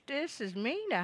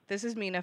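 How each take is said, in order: First: The voice is a strange, put-on character voice. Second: The voice is the speaker's own natural voice. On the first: A joking fake identity. "That was my weirdo voice" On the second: The speaker's real identity. "this is Mina for real"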